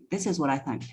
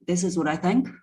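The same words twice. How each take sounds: First: Energy dropping at the end. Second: "think" rising at the end as if asking; sounding like a question. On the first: Coach showing her old unsure delivery, energy dropping at "think". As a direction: start "this is what I think" softly and let "think" fade away. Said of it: "the energy was dropping at the end". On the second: Coach showing how she sounded unsure, questioning rise on "think". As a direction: say it unsurely, pitch lifting on "think". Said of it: "I was sounding like a question". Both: Shown as a demonstration.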